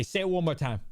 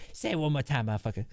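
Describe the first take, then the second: First: Said in the usual way. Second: Lightly voiced cop character; a hint of a threatening cop voice; Ned Schneebly. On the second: Shown as a demonstration. Cop character warns the trash-talking kid, light character voice. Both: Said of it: "I say it in Ned Schneeby's voice".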